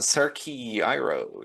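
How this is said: The names are pronounced with English sounds. "si lo traduzco a inglés le van a decir"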